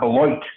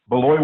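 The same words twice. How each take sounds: First: The word ends with a T sound. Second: The word ends without a T sound. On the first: The speaker calls it wrong. "is not Beloit. You don't pronounce the T" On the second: The speaker calls it right. "You don't pronounce the T"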